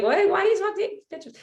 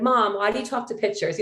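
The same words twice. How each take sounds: First: High, fast mock teenage whine; whiny teen boy. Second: Said in the usual way. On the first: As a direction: mimic a pestering boy, pitched way up. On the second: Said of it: "the boys would be like".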